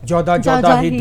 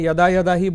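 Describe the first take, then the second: First: The vowels are pronounced in Bengali style, jo-da. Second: The vowels are pronounced in standard Sanskrit style. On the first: "एक बंगाली बोलेगा" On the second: "आपने यदा यदा ही बोला"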